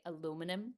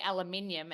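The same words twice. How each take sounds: First: Aluminum as uh-LOO-min-um; American pronunciation. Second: Aluminium as al-yuh-MIN-ee-um; Australian pronunciation. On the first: Actress showing the American word, aluminum stressed on LOO. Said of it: "they say aluminum". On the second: Actress showing the Australian word, aluminium stressed on MIN. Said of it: "we say aluminium". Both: Shown as a demonstration.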